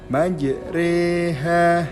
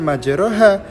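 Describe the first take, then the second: First: The vowel after r tilts toward i. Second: The vowel after r is a plain open a. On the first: The speaker calls it right. "kita membacanya majriha" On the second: The speaker calls it wrong. "dibacanya bukan majroha"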